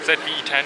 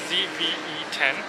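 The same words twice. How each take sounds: First: The first letter is said as zed. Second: The first letter is said as zee.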